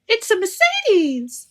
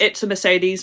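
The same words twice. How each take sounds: First: It is said with lively, excited energy. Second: It is said flatly, without excitement. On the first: The design is thrilling and impressive. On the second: The design is ordinary and unimpressive.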